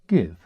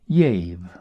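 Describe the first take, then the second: First: The word begins with a hard g sound. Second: The word begins with a y sound. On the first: This is how it is said today. "as we now pronounce it" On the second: This is how it was said long ago in the south. "the southern pronunciation of a G, as in yave"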